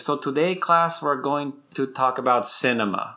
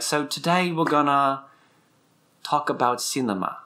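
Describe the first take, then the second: First: Imitating a teacher's Latin American accent; lightly put-on Latin American accent; professor's Latin American accent, imitated. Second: Imitating a teacher's switch into British accent; put-on British accent, addressing a class; lightly imitated British lecturer accent. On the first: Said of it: "his native accent". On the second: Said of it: "it'll switch to English or British".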